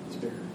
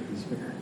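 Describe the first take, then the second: No difference in how they are said.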